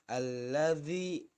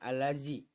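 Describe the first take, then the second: First: The last consonant is 'dh', tongue between teeth. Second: The last consonant is a plain 'z' sound. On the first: The speaker calls it right. "Yang pas itu adalah lidahnya agak digigit, ujung lidahnya digigit" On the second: The speaker calls it wrong. "bukan alazi"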